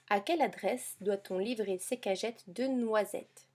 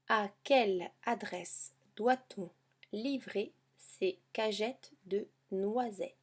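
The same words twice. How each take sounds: First: The sentence is read at a faster pace. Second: The sentence is read at a slower pace.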